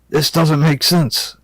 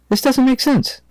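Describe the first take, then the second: First: The line is spoken in a deep voice. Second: The line is spoken in a higher voice. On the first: The speaker calls it wrong. "that's a little bit deep for Rebecca" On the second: The speaker calls it right. "let me do a different voice there"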